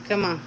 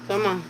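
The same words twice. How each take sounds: The two takes are said the same way.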